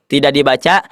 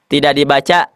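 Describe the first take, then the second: The two takes are said the same way.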